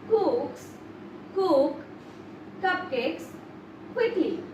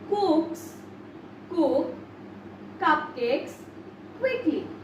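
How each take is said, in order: The two takes are said the same way.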